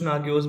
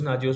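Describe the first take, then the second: First: The middle consonant is a hard g sound. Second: The middle consonant is a j sound. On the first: Some people pronounce it this way. "कुछ नागियोस बोलते हैं" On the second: Other people pronounce it this way. "कुछ नाजियोस बोलते हैं"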